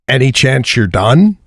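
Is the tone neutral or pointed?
neutral. It is read in a flat, neutral tone. A simple question about being finished. "this is how it came in"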